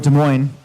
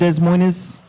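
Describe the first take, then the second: First: The name is pronounced in the local way. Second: The name is pronounced in a nonlocal way. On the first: The speaker calls it right. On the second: The speaker calls it wrong.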